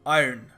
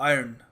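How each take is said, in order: First: The word is said in a neutral accent. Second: The same.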